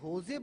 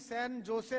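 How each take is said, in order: First: Jose begins with an H sound. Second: Jose begins with a J sound. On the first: The speaker calls it right. "इसे होजे बोलते हैं" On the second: The speaker calls it wrong. "उसकी spelling तो जे से है"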